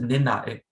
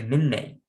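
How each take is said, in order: First: The last syllable has an open 'ah' vowel. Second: The last syllable has a changed, non-'ah' vowel. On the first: The speaker calls it wrong. "So you don't pronounce it ninnax" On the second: The speaker calls it right. "you say ninnex"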